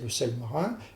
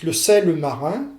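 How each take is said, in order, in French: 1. Aucune voyelle n'est entendue entre sel et marin. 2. Une voyelle supplémentaire est entendue entre sel et marin. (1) "vous devez prononcer le sel marin" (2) "si vous rajoutez un E, vous dites le sel marin"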